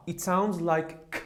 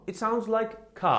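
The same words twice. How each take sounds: First: Said in the usual way. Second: "K" held long and aspirated at the end; stretched K. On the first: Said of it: "combination between C and K". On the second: Shown as a demonstration. Teacher repeating the sound for students, stressing the K. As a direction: lean on the final "K".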